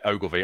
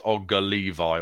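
First: The name is said as three short syllables. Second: The name is split into two separate words. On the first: The speaker calls it right. "Yeah, Ogilvy" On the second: The speaker calls it wrong. "I was pronouncing it as Ogga Levi or something in the green room and you were laughing at me"

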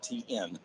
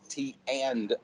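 First: The letter N is said after T. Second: The word 'and' is said clearly after T. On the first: The speaker calls it wrong. "not TN" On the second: The speaker calls it right. "Enunciate that. It's T and"

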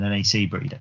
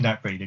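First: NAC is spelled out letter by letter. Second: NAC is said as a single word. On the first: The speaker calls it wrong. "than NAC Breda" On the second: The speaker calls it right. "I'll go with Nac Breda because it sounds more better"

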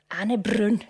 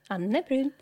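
First: It is said with a Scottish accent. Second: It is said with a Swedish pronunciation.

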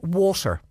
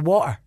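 First: The T in the middle is clearly pronounced. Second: The T in the middle is dropped.

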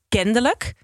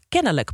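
First: The word is said with a d sound inserted. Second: The word is said without a d sound. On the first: The speaker calls it right. "met een D ertussen" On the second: The speaker calls it wrong. "die had het niet over kennelijk"

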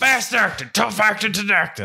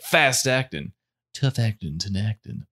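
First: It is said loudly and aggressively. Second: It is said calmly, without screaming.

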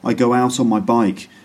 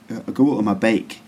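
First: It is said in a plain, non-Scottish accent. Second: It is said in an imitated Scottish accent.

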